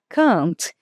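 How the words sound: The vowel is long, as in British English. "esse A mais longo, mais esticado"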